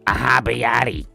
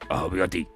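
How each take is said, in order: First: It is said in an old Brooklyn Jewish accent. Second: It is said in a put-on Japanese accent.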